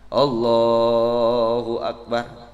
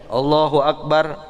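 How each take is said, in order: First: The phrase is drawn out and lengthened. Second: The phrase is said short and quick. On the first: The worshipper is rising to stand from prostration. "kalau mau naik lagi agak dipanjangin, sunnah" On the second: The worshipper is going down into prostration.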